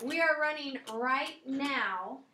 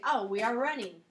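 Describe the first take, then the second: First: "We are running right now" with stress on "are"; stressing "are" to say it's going on right now; emphatic. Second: Said in the usual way. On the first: Shown as a demonstration. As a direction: lean on "are", slower, to insist it's happening now. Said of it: "But if I'm emphasizing it". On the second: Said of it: "That's normally my answer".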